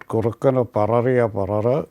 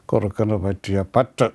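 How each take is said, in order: First: The doubled consonant is sounded as two r's. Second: The doubled consonant is sounded as a t. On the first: The speaker calls it wrong. "It is not" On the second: The speaker calls it right. "it is"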